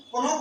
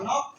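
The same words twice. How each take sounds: First: कनॉफ with the k sounded before the n; wrong pronunciation. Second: नॉफ with the k silent, starting on the n; correct pronunciation. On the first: Teacher showing students the mistake of reading कनॉफ with a spoken k. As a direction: say कनॉफ with a clear k at the start, as if the k were not silent. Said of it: "अगर के को उच्चारण करते". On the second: Teacher modelling the right reading नॉफ for students, with no k. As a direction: begin नॉफ straight on the n and leave the k unsaid. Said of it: "इस को के को नहीं पढ़ते". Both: Shown as a demonstration.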